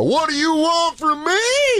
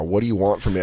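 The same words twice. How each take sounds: First: Mocking mimicry. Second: Said in the usual way. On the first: Son mocking his mom's complaint back at her, squeaky high. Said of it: "I go". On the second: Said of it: "She goes".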